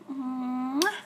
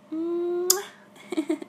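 First: A secret air kiss; whispered kiss. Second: Voiced, louder, higher kiss sound; a big playful smooch; loud smacking kiss. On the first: Acted. Girlfriend whispers a kiss to her faraway boyfriend. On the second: Girlfriend sends her boyfriend a big loud kiss on Skype. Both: Blowing kisses to distant partner.

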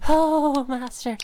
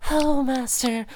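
No difference in how they are said.

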